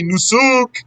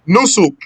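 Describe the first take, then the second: First: A vowel in the word is drawn out long. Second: The vowels in the word are kept short. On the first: The speaker calls it wrong. "Don't say nusuk" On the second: The speaker calls it right. "no extension"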